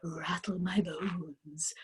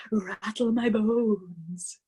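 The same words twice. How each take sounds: First: Slow, whispered spooky rasp on Rattle my bones. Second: Very slow voiced spooky drawl on Rattle my bones. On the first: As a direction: breathe Rattle my bones like a ghost. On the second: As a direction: stretch Rattle my bones out like a ghost. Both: A narrator's reading. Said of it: "a wonderful imitation of a spooky voice".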